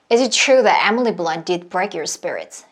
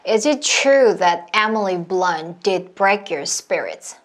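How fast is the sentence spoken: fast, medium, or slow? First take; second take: fast; slow. First: The sentence is spoken at a fast pace. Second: The sentence is spoken at a slow pace. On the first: "조금 더 빠르게" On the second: "이 상태에서 점점 점점 빠르게 가시는 거예요"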